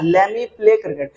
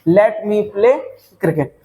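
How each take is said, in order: First: Let and me are blended into lemme. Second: Let and me are said as separate words. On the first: The speaker calls it right. "लेट मी मत बोलना, क्या बोलना है?" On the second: The speaker calls it wrong. "ऐसे नहीं बनाना।"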